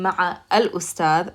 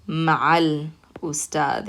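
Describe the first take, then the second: First: Ma'a al ustad with al as a separate word; student's unlinked ma'a al ustad; wrong way. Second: Ma'al ustad, a run straight into l; teacher models linked ma'al ustad. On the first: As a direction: say ma'a al ustad as three words. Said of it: "instead of saying". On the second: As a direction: join ma'a into al: ma'al ustad. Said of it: "we're gonna say". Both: Shown as a demonstration.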